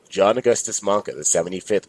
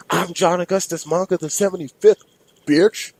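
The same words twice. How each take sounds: First: Said in the usual way. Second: High, loud monster scream; screaming Minotaur. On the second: Acted. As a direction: shriek it like a raging bull-man. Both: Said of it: "The not-so-mini Minotaur screamed".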